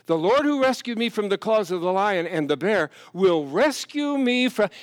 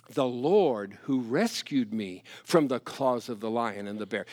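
First: Louder, higher preaching cry; fervent quote. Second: Said in the usual way. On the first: Retold or imitated. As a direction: proclaim it with fire. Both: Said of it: "he said".

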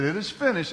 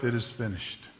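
First: Said in the usual way. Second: Softer, lower last words; dying last breath. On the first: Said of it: "When he said". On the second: Retold or imitated. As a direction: let it go out on the final breath. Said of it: "Final breath".

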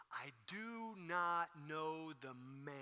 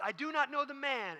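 First: Very slow, drawn-out, softer denial; deliberate denial. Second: High, louder, emphatic denial; insistent denial. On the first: Peter denies Jesus before rooster crows, slow drawn-out denial. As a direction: stretch every word out, "man" last. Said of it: "so Peter says these words". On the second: Peter denies Jesus beside the rooster, high insistent denial. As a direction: protest it in a raised voice. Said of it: "he says those words". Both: Acted.

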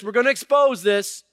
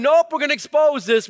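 First: God repeating it, less high, still loud; voice of God, settling. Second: God's loud, high, emphatic verdict. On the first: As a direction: restate God's verdict a notch down. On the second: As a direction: declare it as God, full force. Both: Retold or imitated. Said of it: "And God's going".

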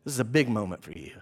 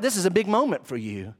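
First: Low, soft and grave; quiet, low-pitched weighty aside; hushed repeat. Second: Said in the usual way. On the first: Acted. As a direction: drop right down and let it sink in. Same line repeated, hushed.

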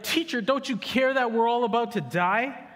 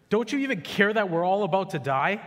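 First: High, loud, hammed-up panicky whine; mock panic. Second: A mild plea raised higher inside the reading; read disciples' plea. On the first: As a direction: pastor mocks the disciples' panic, hammed-up. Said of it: "They're like". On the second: Acted. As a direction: voice the frightened disciples lightly. Disciples' line read from scripture.

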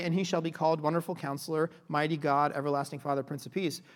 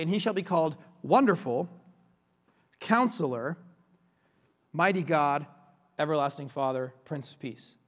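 First: Wonderful Counselor said as one title; run together. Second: Long pause between Wonderful and Counselor; each title standing alone, a full stop after Wonderful; separated titles. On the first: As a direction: read the titles quickly, with no break between Wonderful and Counselor. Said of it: "you wouldn't say". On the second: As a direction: set Wonderful and Counselor apart as two names. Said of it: "You would say". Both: Shown as a demonstration.

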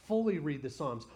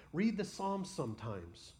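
First: Fully pressed, the rest follows; stress on Fully. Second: Said in the usual way. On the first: Shown as a demonstration. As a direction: Fully hit louder with a falling tune.

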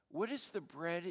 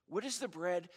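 Both takes have the same delivery.

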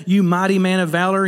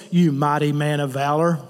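First: Earnest, affirming "You mighty man of valor"; a respectful, uplifting address; sincere calling. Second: A low, dismissive "You mighty man of valor"; lightly sneering jab at a frightened man; mock insult. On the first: Retold or imitated. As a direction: call him up to something greater with "You mighty man of valor". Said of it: "He's calling him up". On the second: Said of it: "insulting him".

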